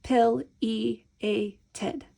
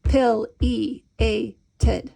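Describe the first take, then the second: First: Counting each syllable evenly; counted syllables. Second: Each syllable pounded out; pounding syllables. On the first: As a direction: count the beats as you say it. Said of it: "We're gonna count it". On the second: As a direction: beat the syllables out. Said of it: "or you can pound it". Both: Shown as a demonstration.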